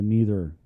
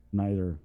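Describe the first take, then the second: First: "neither" said NEE-ther, long ee; "neither" with an ee sound like "need". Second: "neither." said NYE-ther, eye sound; "neither." with an eye sound like "night". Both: Shown as a demonstration. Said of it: "is it neither or neither".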